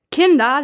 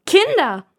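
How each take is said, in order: First: High, loud call of kinder; first bellow. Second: Much higher, loud kinder with a falling end; louder bellow. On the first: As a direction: bark kinder to get their attention. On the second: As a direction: yell kinder at the top of your voice. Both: Acted. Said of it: "brüllt die genervte Mutter".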